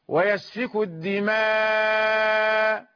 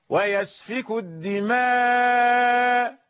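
First: The final long vowel is held very long. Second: The final long vowel is held moderately long. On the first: "يطول المد" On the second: "يكون وسطا"

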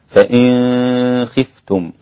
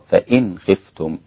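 First: The n before kh is hidden and nasalized. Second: The n before kh is pronounced clearly. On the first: This is one reader's tradition. "انفرد بإخفاء النون الساكنة مع الخاء، فيكون النطق عند الإمام أبي جعفر" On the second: This is the other readers' tradition. "والباقون بالإظهار"

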